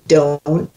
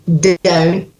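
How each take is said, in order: First: It is said in an American accent. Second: It is said in a German accent.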